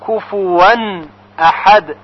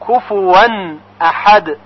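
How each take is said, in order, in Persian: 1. صامت میانی یک صدای w است. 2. صامت میانی یک صدای w است.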